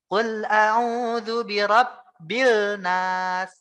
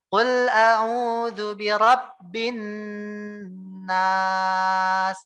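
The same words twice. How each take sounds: First: Slow, loud chant with a clear L in "birabbil"; sung, bacaan salah tilawah. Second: Slow, loud chant with a long humming N in "birabbin"; sung, tilawah gunnah ditahan. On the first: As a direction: chant it wrongly, sounding the L in "birabbil nas". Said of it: "nggak mungkin bacanya kayak gini". (sung, tilawah pelan, lam "birabbil" dibaca jelas) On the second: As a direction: chant it, holding the nasal N of "birabbin nas". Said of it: "kita perlu tahan tiga harokat". (sung, tilawah pelan, nun "birabbin" ditahan mendengung) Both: Shown as a demonstration.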